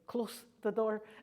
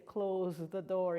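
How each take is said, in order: First: The s in close is hissed like s. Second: The s in close is buzzed like z. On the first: Close means near here. The speaker calls it wrong. "He wouldn't say close the door" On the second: Close means shut here. The speaker calls it right. "he'd say close the door"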